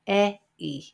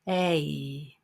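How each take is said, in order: First: Two separate vowel sounds are said one after another. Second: One vowel glides smoothly into the next. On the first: The speaker calls it wrong. "But we don't say it like that" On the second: The speaker calls it right. "we glide from one sound to another. So it sounds like this"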